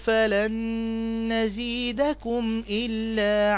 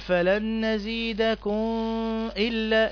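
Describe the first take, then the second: First: The final m is pronounced fully and clearly. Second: The final m is merged or hidden, not clear. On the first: The speaker calls it right. "تنطق هكذا بلا إضغام ولا إخفاء" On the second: The speaker calls it wrong. "أو تقول فلن نزيدكم إلا، لا"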